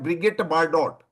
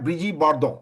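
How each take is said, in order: First: The name is said with anglicized sounds. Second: The name is said with French sounds. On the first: The speaker calls it wrong. "ऐसे लोग बोलते हैं" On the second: The speaker calls it right. "उसका French pronunciation है"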